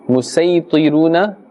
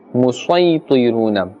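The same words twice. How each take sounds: First: The s is a plain, light s. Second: The s is a heavy, emphatic s. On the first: "the first example" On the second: "and the second"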